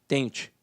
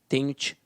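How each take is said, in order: Both takes have the same delivery.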